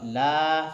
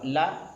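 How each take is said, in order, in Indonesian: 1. Vokalnya ditahan selama satu ketukan penuh. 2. Vokalnya hanya ditahan sebentar. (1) "satu alif" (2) "harokat setengah alif"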